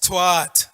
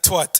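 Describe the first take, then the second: First: The vowel is said long. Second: The vowel is said short. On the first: The speaker calls it right. "That's a long A. Long A" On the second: The speaker calls it wrong. "It's not twat"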